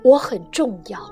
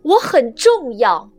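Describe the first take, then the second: First: It is said a little louder. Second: It is said loudly, like a proclamation.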